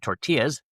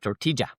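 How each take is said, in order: First: It is said with an American double L. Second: It is said with a Colombian J sound.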